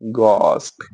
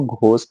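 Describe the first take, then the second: First: The first consonant is plain, with no h. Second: The first consonant has a breathy h sound. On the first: The speaker calls it right. "इसमें एच silent पे, हम एच को pronounce नहीं करते" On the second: The speaker calls it wrong. "हम कभी भी उसको घोस्ट नहीं बोलेंगे"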